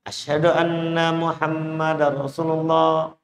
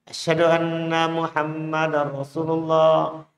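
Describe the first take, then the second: No difference in how they are said.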